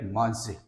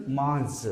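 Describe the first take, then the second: First: "mange" with the last E voiced as "ay", like "mahn-zhay"; final E sounded. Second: "mange" with the last E left silent; silent final E. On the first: Teacher shows accent on the E, "mange" ending in "ay". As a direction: say "mange" in two syllables, ending in "ay". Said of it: "if you put accent". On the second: Teacher shows French word without accent, "mange" with silent E. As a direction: say "mange" as one syllable, ending on the consonant. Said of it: "last E will not be pronounced". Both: Shown as a demonstration.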